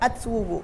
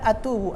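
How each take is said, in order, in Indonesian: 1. Kata ini diucapkan dengan bunyi w. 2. Kata ini diucapkan tanpa bunyi w. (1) "tapi atwubu" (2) "Bukan atubu"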